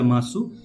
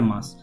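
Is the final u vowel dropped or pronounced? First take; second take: pronounced; dropped. First: The final u vowel is clearly pronounced. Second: The final u vowel is dropped. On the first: The speaker calls it wrong. "या मासु, तो ऐसा नहीं होगा" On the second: The speaker calls it right. "This या मास"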